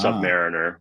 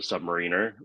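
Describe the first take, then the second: First: It sounds like sub plus mariner. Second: It sounds like submarine plus -er. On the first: The speaker calls it wrong. "more emphasizing the less the subpar elements" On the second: The speaker calls it right. "the emphasis on the submarine part of the word"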